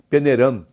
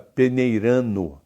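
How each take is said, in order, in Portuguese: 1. A palavra termina com som de 'm' nasal. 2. A palavra termina com 'ndo' completo.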